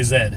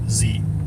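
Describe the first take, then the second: First: The letter is said the Canadian way. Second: The letter is said the speaker's usual way. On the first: "they're Canadian, ... They say Z" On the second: "they don't say the letter Z as Z"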